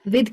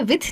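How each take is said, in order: First: The word ends with a d-like sound. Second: The word ends with a th-like sound. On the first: The speaker calls it right. "विद कहते हैं" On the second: The speaker calls it wrong. "विथ नहीं कहते हैं"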